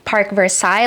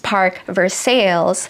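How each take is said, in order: First: Versailles is pronounced the French way. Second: Versailles is pronounced the American way. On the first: "like in Versailles, France" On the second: "sometimes when you hop over to the pond, the pronunciation changes"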